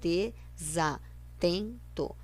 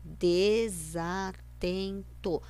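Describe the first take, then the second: The two takes are said the same way.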